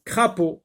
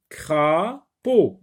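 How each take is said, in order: First: Said in the usual way. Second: "crapaud" slowly as cra, pause, paud; syllable by syllable. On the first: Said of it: "retenez le mot crapaud". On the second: Shown as a demonstration. Teacher dividing the word for pupils, "crapaud" in two separate syllables. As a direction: split "crapaud" into two held beats. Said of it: "deux consonnes".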